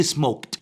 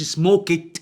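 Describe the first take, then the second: First: "سموكت" as one syllable, smokt; correct t ending. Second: "سموكت" slowly as smo-ket; wrong extra syllable. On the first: Teacher shows what he did say, one syllable. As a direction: say "سموكت" lower, t straight after k. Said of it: "قلت". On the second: Teacher shows what he did not say, two syllables. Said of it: "ما قلتش". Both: Shown as a demonstration.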